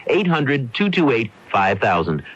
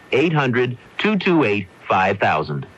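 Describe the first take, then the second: No difference in how they are said.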